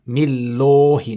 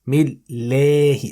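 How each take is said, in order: First: The L is heavy, with a full rounded mouth. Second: The L is light, with lips spread sideways. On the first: The speaker calls it wrong. "not Millahi, no" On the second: The speaker calls it right. "Stretch your mouth sideways"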